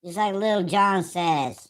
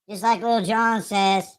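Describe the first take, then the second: First: Slow drawn-out hype shout; [name] shout. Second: Quick hype-man yell; [name] shout. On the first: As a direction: yell it like a crunk hype man. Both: Retold or imitated.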